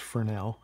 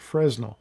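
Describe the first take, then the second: First: The s sound in the middle is silent. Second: The s sound in the middle is pronounced. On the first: The speaker calls it right. "a man whose name was Fresnel" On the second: The speaker calls it wrong. "You'll hear people pronounce the S, say Fresnel. That's really not the right pronunciation"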